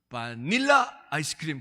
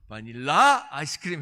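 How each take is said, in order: First: The stress is on the middle syllable. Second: The stress is on the last syllable. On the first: "이게 중간에 있나 보다" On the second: "이게 끝에 있나 보다"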